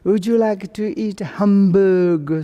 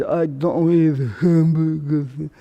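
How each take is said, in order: First: "Would you like to eat hamburger" high, clearly voiced; speech demonstration. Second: "I don't eat hamburger" mumbled with loose consonants; slurred old speech. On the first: Asking about food as a demonstration, "Would you like to eat hamburger" pitched high. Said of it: "I cannot to say". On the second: Old people's tongue problems, "I don't eat hamburger" slurred. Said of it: "I don't want to say like this". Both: Shown as a demonstration.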